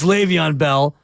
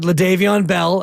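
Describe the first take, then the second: First: The first name is said as Le'Veon. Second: The first name is said as LaDavion. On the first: This is the player's actual name. The speaker calls it right. "It's Le'Veon Bell" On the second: This is how a child mistakenly says the name. The speaker calls it wrong. "I pronounce it that way because that's how my son Quest would"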